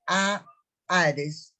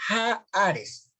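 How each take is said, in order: First: "haaretz" with a silent h, long first A; correct pronunciation. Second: "haaretz" with an audible aspirated J-like h; others' mistaken reading. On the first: Teacher showing students the word, "haaretz" without any J sound. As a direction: say "haaretz" as a-ARES, opening on a held vowel. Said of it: "esta palabra". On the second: Teacher showing how some read it, "haaretz" with aspirated h. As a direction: hit a rough breathy H starting "haaretz". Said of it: "algunos la leen como". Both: Shown as a demonstration.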